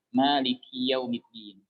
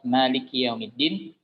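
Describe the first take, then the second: First: The final vowel of 'Maliki' is lengthened. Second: The final vowel of 'Maliki' is short. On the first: It means I am the ruler. The speaker calls it wrong. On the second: It means the ruler of the last day. The speaker calls it right.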